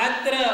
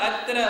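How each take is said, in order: The two takes are said the same way.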